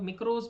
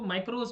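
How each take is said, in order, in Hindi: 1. पहला स्वर 'ee' जैसा बोला जाता है। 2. पहला स्वर 'eye' जैसा बोला जाता है। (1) "कोई लोग मिक्रोस भी बोलते हैं" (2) "इसको माइक्रोस भी बोलते हैं"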